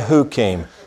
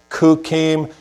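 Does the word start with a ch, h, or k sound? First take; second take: h; k. First: The word begins with a soft h sound. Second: The word begins with a hard k sound. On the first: "don't say hukim" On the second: "You don't say kukim"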